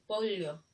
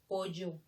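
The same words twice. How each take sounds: First: The double L has a palatal L sound. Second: The double L has a Y sound. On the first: "Lo correcto debe ser pollo" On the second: "nosotros decimos pollo. Le damos el sonido de la Y"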